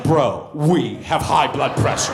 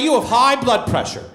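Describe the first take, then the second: First: "we" stressed, slow and drawn out; mock-alarmed correction with "we" punched. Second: Said in the usual way. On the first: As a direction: lean slowly on "we". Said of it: "I was like". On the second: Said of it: "He was like".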